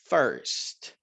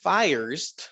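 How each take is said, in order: First: The vowel sound is short and clipped. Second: The vowel sound is long and drawn out. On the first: The speaker calls it right. "First tiene un sonido corto" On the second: The speaker calls it wrong. "no es first"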